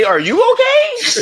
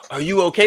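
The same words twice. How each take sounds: First: Much higher, louder, slow mock shriek of are you okay; exaggerated mock panic; hammed-up concern. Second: Higher mock worried asking; half-hearted mock concern. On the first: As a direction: overdo the fake worry, squeal it. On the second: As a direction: imitate a fake caring hero. Mock concern, first take.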